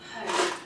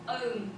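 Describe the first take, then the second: First: The word starts with an h sound. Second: The word starts without an h sound. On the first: "and I would say" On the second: "we actually omit the sound altogether. So I might say"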